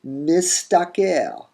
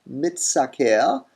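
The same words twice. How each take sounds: First: Mistaker said slowly and high, mis then taker. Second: Mitsaker drawn out slowly, mit then saker. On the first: Teacher showing the metathesized form, mistaker. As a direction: stretch mistaker, s before t. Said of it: "and you get". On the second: Teacher repeating the expected form slowly, mitsaker. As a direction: stretch mitsaker with t first. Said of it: "we would expect mitsaker". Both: Shown as a demonstration.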